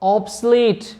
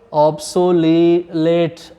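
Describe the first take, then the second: First: The middle vowel is reduced or dropped. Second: The middle vowel is clearly pronounced. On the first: The speaker calls it right. "क्या ऑब्सलेट" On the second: The speaker calls it wrong. "ऑब्सोलेट नहीं"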